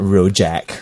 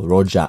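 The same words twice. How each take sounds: First: The word is said with a non-local pronunciation. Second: The word is said with a local pronunciation. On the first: The speaker calls it wrong. "Yes, not Rojak" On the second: The speaker calls it right. "Pronounce it like a local"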